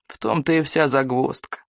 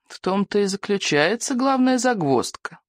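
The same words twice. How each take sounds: First: Put-on mildly creaky old man's remark; a touch of creak in the voice. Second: Put-on higher-pitched old man's murmur; lightly rustled, raised old voice; rustling old voice. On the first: Old healer explains the snag, mildly creaky. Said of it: "протянул он скрипучим голосом". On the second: Old healer names the main snag, rustling voice. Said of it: "прошелестел старый сморчок". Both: A narrator's reading.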